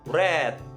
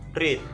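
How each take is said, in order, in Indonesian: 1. Diucapkan seperti 'red'. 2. Diucapkan seperti 'reed'. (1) "Read pada kata kerja kedua dan kata kerja ketiga dibaca read" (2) "Read pada kata kerja pertama itu dibaca read"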